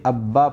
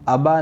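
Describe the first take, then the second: First: The middle b sound is doubled and held. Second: The middle b sound is short and single. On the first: The speaker calls it right. "बल्कि अब्बा पढ़ेंगे" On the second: The speaker calls it wrong. "अबा नहीं पढ़ेंगे"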